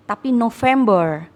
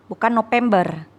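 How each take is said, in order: First: "November" with a clear v sound; English pronunciation. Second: "November" said with a p sound, Indonesian style; wrong Indonesian pronunciation. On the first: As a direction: say "November" with a v, not a p. (ucapkan "November" pakai bunyi v) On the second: (ucapkan "November" dengan bunyi p, cara yang salah) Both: Shown as a demonstration.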